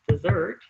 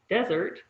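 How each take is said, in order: First: The stress is on the second syllable. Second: The stress is on the first syllable. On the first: It means the final course of a meal. "if you stress it correctly on the second syllable" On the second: It means a dry region like the Sahara. "If you stress it on the first syllable"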